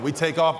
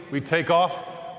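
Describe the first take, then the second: First: Said in the usual way. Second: Drawn-out, very slow; dread-filled slow delivery; slow takeoff. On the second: Acted. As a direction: stretch each word like the wheels leaving.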